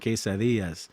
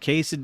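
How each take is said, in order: First: It is said with a Spanish accent. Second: It is said with a plain American accent. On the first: "talk like you're Spanish" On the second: "instead of me saying"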